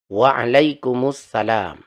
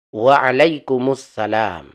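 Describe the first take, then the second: The two takes are said the same way.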